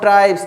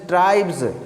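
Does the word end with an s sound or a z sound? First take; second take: s sound; z sound. First: The final sound is a hissing s. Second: The final sound is a buzzing z. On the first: The speaker calls it wrong. "This is not ट्राइब्स" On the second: The speaker calls it right. "एस is प्रोनाउंसिएटेड as ज here, not as स"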